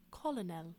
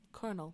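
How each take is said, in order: First: Colonel said as "kol-o-NEL"; changed French pronunciation. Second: Said in the usual way. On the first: Shown as a demonstration. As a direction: give colonel three syllables with an L. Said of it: "French pronunciation had changed to". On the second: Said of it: "pronunciation had changed to".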